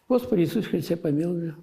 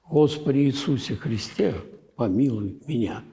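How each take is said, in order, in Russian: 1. Слова произносятся быстро, одно за другим. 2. Каждое слово произносится медленно и обдуманно. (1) "а я за 15 минут все это делаю" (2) "вот так, с вниманием к каждому слову"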